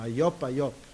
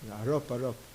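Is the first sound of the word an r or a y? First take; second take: y; r. First: The r sound is replaced by a y sound. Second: The r sound is pronounced as an r. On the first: The speaker calls it wrong. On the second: The speaker calls it right.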